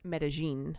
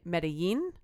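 First: The double L sounds like an English J. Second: The double L sounds like an English Y. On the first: "But actually, it's Medellin" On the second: "if we were to pronounce it with a Mexican accent"

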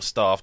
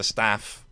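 First: It is said with an English accent. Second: It is said with an American accent. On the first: "depending on whether they're American or English" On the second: "depending on whether they're American or English"

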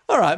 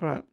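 First: The greeting sounds warm and friendly. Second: The greeting sounds cold and menacing. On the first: "you're going nicer somehow" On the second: "that was pretty sinister"

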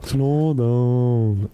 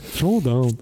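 First: It is said too slowly, drawn out. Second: It is said more quickly, less drawn out.

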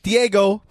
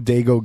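First: The name is said as three syllables, Diego. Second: The name is said as two syllables, Dago. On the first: The speaker calls it right. "it's Diego" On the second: The speaker calls it wrong. "the way that Nathan pronounced it"

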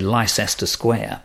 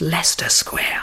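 First: It is said with an American accent. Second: It is said with a British, local pronunciation. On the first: A visitor unfamiliar with the name said it. The speaker calls it wrong. "somebody, an American, say Leicester Square" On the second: A local corrects the name. The speaker calls it right. "want to say it's Leicester Square"

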